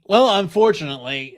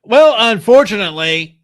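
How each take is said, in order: First: Said in the usual way. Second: Laughing. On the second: Real, not acted.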